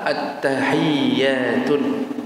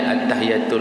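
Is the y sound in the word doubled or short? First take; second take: doubled; short. First: The y sound is held and doubled. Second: The y sound is short and light. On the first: The speaker calls it right. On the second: The speaker calls it wrong. "meringankan lidahnya, at-tahiyatul mubah, salah"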